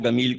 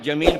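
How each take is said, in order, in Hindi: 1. नाम की शुरुआत हार्ड G की आवाज़ से होती है। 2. नाम की शुरुआत J की आवाज़ से होती है। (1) "गमील कहते हैं" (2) "जमील को"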